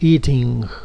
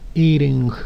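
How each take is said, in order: First: The t is pronounced as a clear t. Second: The t sounds like a soft, quick r-like tap. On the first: "en una pronunciación más británica, más internacional" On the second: "en inglés americano cambiamos esa T por una R muy suave"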